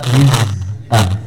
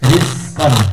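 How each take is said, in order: First: The z sound stays voiced throughout. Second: The z sound ends with a hissing s. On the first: The speaker calls it right. "Yang betul apa?" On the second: The speaker calls it wrong. "Awalnya za, akhirnya ada sin ... Ini contoh yang salah"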